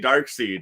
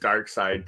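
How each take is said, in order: First: The second part rhymes with 'seed'. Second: The second part rhymes with 'side'. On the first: This is how some other people say it. "Some people say Dark Seed" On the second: This is how the speaker has always said it. "I've always said it as Dark Side"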